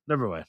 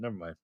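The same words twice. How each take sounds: First: Said in the usual way. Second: Softer, lower, trailing off; quiet never mind. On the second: Real, not acted. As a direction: drop it under your breath. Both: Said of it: "do I even wanna know that".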